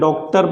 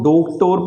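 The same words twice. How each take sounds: First: The first vowel is a half, open o sound. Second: The first vowel is a full, long o sound. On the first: "इसको ओ ना पढ़ते हुए क्या किया जाता है? डॉक्टर पढ़ा जाता है" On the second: "ओ पढ़ा जाना चाहिए तो इसको डॉक्टर पढ़ना चाहिए"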